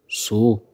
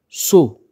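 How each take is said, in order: First: The word is said on a low tone. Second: The word is said on a high tone. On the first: It means horse. "Ton bas" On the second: It means house. "On pourrait dire que c'est un ton haut"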